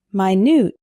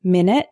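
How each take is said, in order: First: MINUTE stressed on the second syllable; adjective pronunciation. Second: MINUTE stressed on the first syllable; noun pronunciation. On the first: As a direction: say minute as my-NOOT. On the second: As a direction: say Minute as MIN-it. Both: Shown as a demonstration. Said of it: "minute and minute".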